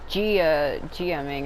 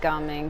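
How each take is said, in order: First: The name is broken into separate parts. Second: The name is said smoothly as one word. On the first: This is how other people kept saying it. The speaker calls it wrong. "everybody kept saying Gia GMing" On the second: This is how the game itself says it. The speaker calls it right. "his name was said like Gaming"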